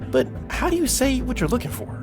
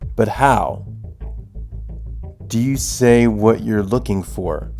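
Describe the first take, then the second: First: It is said expressively, like natural talk. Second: It is read flatly, like reading text.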